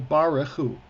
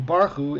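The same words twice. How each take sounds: First: Baruchu as ba-re-CHU, middle syllable kept; three-syllable pronunciation. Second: First Baruchu as BAR-chu, middle syllable missing; two-syllable mispronunciation. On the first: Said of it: "It's three syllables". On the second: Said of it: "a three-syllable word is a two-syllable word". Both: Shown as a demonstration.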